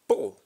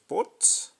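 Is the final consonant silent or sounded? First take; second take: silent; sounded. First: The final t is silent. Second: The final t is pronounced. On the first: The speaker calls it right. "Po, and not pot" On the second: The speaker calls it wrong. "and not pot"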